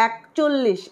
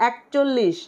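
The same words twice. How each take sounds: The two takes are said the same way.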